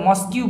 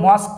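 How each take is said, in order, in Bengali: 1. শব্দের শেষে একটা বাড়তি 'kyu' সিলেবল আছে। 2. শব্দটা শেষ হয় পরিষ্কারভাবে 'k' শব্দে। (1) "এটা মস্কিউ বলবে না" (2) "এটা বলবে মস্ক স্ট্রিট"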